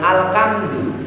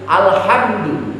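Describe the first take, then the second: First: The middle consonant is a hard k sound. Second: The middle consonant is a breathy h sound. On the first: The speaker calls it wrong. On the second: The speaker calls it right.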